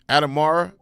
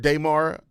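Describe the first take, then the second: First: The name begins with an 'ad' sound. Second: The name begins with a 'day' sound. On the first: "I think I say Adam" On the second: "my brain just doesn't think a day as as an actual name"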